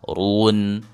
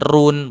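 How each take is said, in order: First: The syllable is said thick and heavy. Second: The syllable is said thin and light. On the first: The speaker calls it right. "Ru itu ditebalkan" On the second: The speaker calls it wrong. "bukan run, bukan. Kalau run itu tipis"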